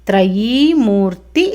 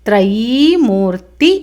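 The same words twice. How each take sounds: No difference in how they are said.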